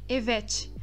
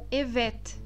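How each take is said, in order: First: The final T sounds like a Portuguese T. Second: The final T is made with the tongue tip. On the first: The speaker calls it wrong. "com esse T do final do português" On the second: The speaker calls it right. "um T que será pronunciado na ponta da língua"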